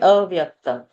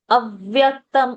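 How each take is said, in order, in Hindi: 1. पहले स्वर के बाद का व्यंजन एकल है। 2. पहले स्वर के बाद का व्यंजन द्विगुणित है। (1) "it won't be plain avyaktam" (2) "a will have a dvitva pressure"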